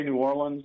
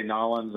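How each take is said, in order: First: New Orleans said out in full, "New OR-linz"; standard New Orleans. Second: Nollins squeezed into two syllables, "NAH-linz"; local Nollins. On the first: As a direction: say New Orleans with every syllable distinct. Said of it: "I can say New Orleans". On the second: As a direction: run New Orleans together as Nollins. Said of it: "I can say Nollins". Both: Shown as a demonstration.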